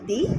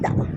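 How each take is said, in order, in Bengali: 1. শব্দটি দীর্ঘ 'ee' স্বরধ্বনি দিয়ে শেষ হয়। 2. শব্দটি হ্রস্ব 'uh' স্বরধ্বনি দিয়ে শেষ হয়। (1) "যখন আমরা ভাওয়েলের আগে বলবো" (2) "কনসোনেন্টের যে কোনো লেটার দিয়ে কোনো ওয়ার্ড শুরু হলে সেটা হয়ে যাবে দা"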